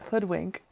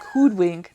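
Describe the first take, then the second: First: The word is pronounced in the ordinary way. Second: The word is pronounced in an odd, unusual way. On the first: The speaker calls it right. "not hoodwink" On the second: The speaker calls it wrong. "She just said it weird. She was like hoodwink"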